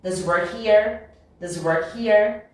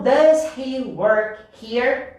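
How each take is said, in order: First: DOES HE WORK HERE with DOES HE glued as "duh-zee"; linked speech. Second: DOES HE WORK HERE slowly in separate words, H in HE sounded; unlinked word by word. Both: Shown as a demonstration. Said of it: "Vai virar".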